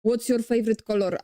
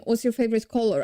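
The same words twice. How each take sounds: First: Quick Polish-accented delivery with hard Rs. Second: Careful English-style accent from a Polish speaker; attempted English accent. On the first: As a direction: roll the Rs in a thick Polish accent. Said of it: "I'm not speaking like that". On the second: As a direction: try an English accent, no rolled R. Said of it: "I try to make your accent". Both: Shown as a demonstration.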